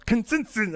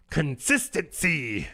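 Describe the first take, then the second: First: "Consistent." said high with a falling swoop; odd pronunciation. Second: Slow, drawn-out "Consistency.". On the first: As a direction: pitch "Consistent." high and let it fall. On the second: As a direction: stretch "Consistency." slowly in a put-on tone. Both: Shown as a demonstration. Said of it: "I don't know why I said it like that".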